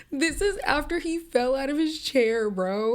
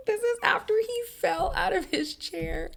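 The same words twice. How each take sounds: First: Incredulous. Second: Way higher, squealing in disbelief; high incredulous squeal; squeaky disbelief. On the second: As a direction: shriek it out, can't believe it. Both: Real, not acted.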